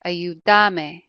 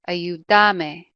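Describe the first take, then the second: First: The stress is on the syllable da. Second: The same.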